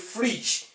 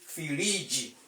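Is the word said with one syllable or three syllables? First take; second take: one; three. First: It is said as one syllable with a consonant cluster. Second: It is said as three syllables with added vowels. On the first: "which is a monosyllabic word in English language" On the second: "when you want to say it in Yoruba language, you say firiji"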